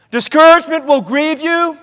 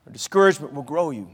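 First: Higher-pitched first half of a contrast; raised warning. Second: Low, soft reply; hushed counterpoint. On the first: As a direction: lift the voice and leave it hanging on "grieve". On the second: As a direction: sink the voice right down to answer the warning. Hushed answer to raised line. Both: Real, not acted.

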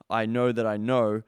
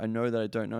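First: Second KNOW asserted louder, with confidence; cocksure certainty. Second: Said in the usual way. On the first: Acted. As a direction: state "I know that I know" firmly, leaning on KNOW. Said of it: "from a perspective of". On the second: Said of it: "Instead of, like, going".

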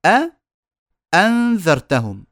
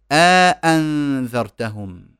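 First: أ then أنذرتهم, each hamza caught separately; two separate hamzas. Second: أ أنذرتهم slow, first أ stretched long; long alif inserted. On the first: Teacher showing two hamzas meeting, each sounded separately. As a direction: split أ from أنذرتهم with two glottal stops. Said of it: "لما يجتمع عندي همزتين". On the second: Teacher showing some Arabs' idkhal, long aa between hamzas. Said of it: "إدخال ألف بين الهمزتين". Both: Shown as a demonstration.

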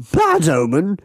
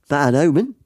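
First: Higher, incredulous English character voice; Englishman. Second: Mock Australian with a rising end; matey Australian twang, lifted ending; Australian accent. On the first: Acted. Middle-aged Englishman dismisses the tall man's warning, mock English accent. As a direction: scoff as a pompous Englishman. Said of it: "says a middle-aged Englishman". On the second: Tall man warns fellow passenger of bad luck, Australian accent. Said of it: "it's gone so Australian".

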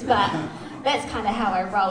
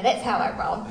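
First: Laughing. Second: Said in the usual way. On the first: Real, not acted. Laughing at own bare feet.

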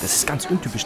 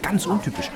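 First: Said in the usual way. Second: Ganz pushed higher with a fall; stress on ganz. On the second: Acted. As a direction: lean into ganz, amazed. Repeats with emphasis.

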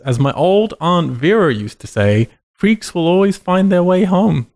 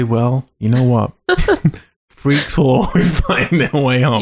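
First: Lightly hammed solemn movie doctor; ominous doctor quote. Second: Folksy aunt. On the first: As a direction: intone it like grave wisdom. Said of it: "And then he says". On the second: Retold or imitated. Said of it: "would anyone in your family ever say".

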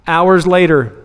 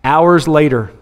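Both takes have the same delivery.

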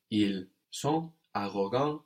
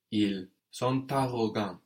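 First: Said in the usual way. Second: "ils sont arrogants" with T sounded after "sont"; optional liaison. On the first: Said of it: "We could have a liaison there". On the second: Shown as a demonstration. Teacher shows the second option, "ils sont arrogants" with linking T. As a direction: link "sont" into "arrogants" through a T. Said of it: "liaison there with the T on the end of sont".

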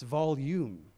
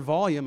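First: "volume" slowed into "VAHL-YOOM"; corrected volume. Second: "volume" said as "VAHL-yum"; mispronounced volume. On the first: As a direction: draw out "volume" with a full, long "yoom" at the end. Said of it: "not how you say the word". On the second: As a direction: say "volume" with a short, reduced second syllable, "VAHL-yum". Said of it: "is not how you say". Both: Shown as a demonstration.

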